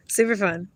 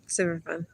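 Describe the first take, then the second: First: Laughing. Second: Much softer, dry repeat; softer echo. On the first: Laughing repeat of remark. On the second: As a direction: drop it to an aside. Quiet repeat of remark. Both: Real, not acted.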